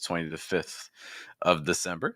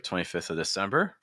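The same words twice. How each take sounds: First: The word 'of' is said in full. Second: The word 'of' is reduced to 'uh'.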